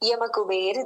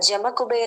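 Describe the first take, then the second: First: The first word begins with a y sound. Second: The first word begins with a j sound. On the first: "యమ అన్న" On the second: "లేదా జమ కుబేర్ అని కూడా ఉంటుంది"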